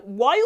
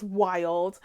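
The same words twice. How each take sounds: First: "world" said like "wild", in a mock Boston-like accent; amused stab at an odd Boston-like accent. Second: Said in the usual way. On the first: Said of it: "That's how they would say world".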